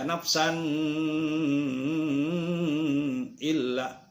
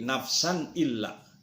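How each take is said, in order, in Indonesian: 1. Bunyi n sebelum illa dibaca panjang. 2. Bunyi n sebelum illa pendek dan jelas. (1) "jangan dibaca nafsan illa, keliru" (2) "harus dibaca jelas dan jangan lama-lama"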